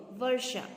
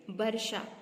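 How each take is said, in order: First: वर्षा with v, "varsha"; careful model "varsha" for वर्षा; correct pronunciation. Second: वर्षा with b, "barsha"; wrong pronunciation. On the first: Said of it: "वर्षा व होता है". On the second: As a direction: say वर्षा starting with closed lips, a b. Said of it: "वर्षा शब्द सही नहीं है". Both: Shown as a demonstration.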